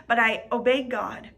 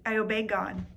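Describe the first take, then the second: First: "obeyed" stressed firmly with a falling close; emphatic declaration. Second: Said in the usual way. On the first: Shown as a demonstration. Preacher declares to church she obeyed God, firm stress.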